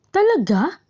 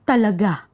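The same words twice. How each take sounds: First: The pitch dips, then rises high at the end. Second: The pitch goes up, then falls at the end. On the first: The speaker doubts that it is true. "Kapag nag-aalinlangan, ang bilang nito ay two, one at three" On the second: The speaker affirms that it is true. "nagpapahayag o nagpapatibay, ang bilang nito ay two, three, one"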